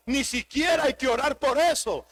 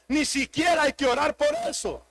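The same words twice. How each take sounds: The two takes are said the same way.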